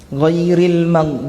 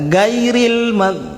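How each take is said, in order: First: The first word begins with a throaty gh sound. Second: The first word begins with a hard g sound. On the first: The speaker calls it right. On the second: The speaker calls it wrong.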